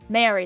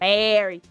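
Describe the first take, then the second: First: It is said without a Southern accent. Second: It is said with a Southern accent. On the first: "They wouldn't say Mary" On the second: "they say Mary"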